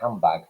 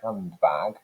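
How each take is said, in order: First: The middle consonants merge into an m sound. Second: Every consonant in the middle is clearly pronounced. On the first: "that consonant cluster there has been reduced" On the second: "that carefully articulated way"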